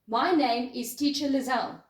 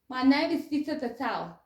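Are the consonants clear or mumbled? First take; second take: clear; mumbled. First: The consonants are articulated clearly and crisply. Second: The consonants are slurred and barely distinguishable. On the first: The speaker calls it right. "this is the sentence with using my tongue and teeth" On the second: The speaker calls it wrong. "without using my teeth"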